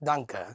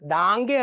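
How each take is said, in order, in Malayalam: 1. 'a' എന്ന സ്വരം ഹ്രസ്വമായി നിർത്തുന്നു. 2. 'a' എന്ന സ്വരം നീട്ടി ദീർഘമായി പറയുന്നു. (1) "ഇവിടെ ഡോട്ട് വന്നു കഴിഞ്ഞാൽ" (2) "ദാങ്ക് അല്ല"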